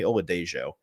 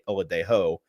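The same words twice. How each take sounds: First: The J is said like an English J. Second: The J is said like an H sound. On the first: The speaker calls it right. "but no, it's Femi Oladejo" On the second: The speaker calls it wrong. "I say Oladejo like, you know, you don't pronounce the J in Spanish"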